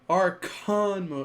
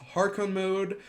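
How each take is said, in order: First: The first word starts with a vowel sound. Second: The first word starts with an h sound. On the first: The speaker calls it right. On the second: The speaker calls it wrong.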